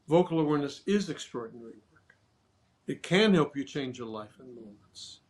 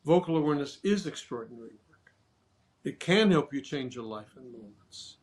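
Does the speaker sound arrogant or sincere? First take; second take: sincere; sincere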